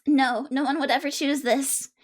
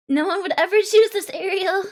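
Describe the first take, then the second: First: Said in the usual way. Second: Louder, punching choose; insist, leaning hard on choose; loud emphatic. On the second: Shown as a demonstration.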